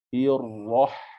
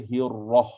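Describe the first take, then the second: First: The h is sharp and strongly breathy. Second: The h is soft and weakly breathy. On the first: The speaker calls it right. "Jadi kita kena bunyikan dia pedas" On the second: The speaker calls it wrong. "Tak boleh baca hirrah"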